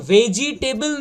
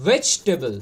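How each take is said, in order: First: ভেজিটেবল as "ve-jee-TAY-bel"; drawn-out wrong ভেজিটেবল; common mispronunciation. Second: ভেজিটেবল as "VECH-tebl"; low, compact ভেজিটেবল; correct pronunciation. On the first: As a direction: slowly sound all four syllables of ভেজিটেবল. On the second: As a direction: drop the "i" in ভেজিটেবল. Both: Shown as a demonstration. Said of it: "কথাটা ভেজিটেবল নয়".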